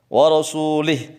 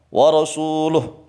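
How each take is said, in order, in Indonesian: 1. Vokal sebelum h terakhir adalah i. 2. Vokal sebelum h terakhir adalah u. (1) "haram menjadi musyrik kalau lamnya di kasrah" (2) "wajib dibaca wa rasuluh. Maksudnya adalah lamnya di dhammah"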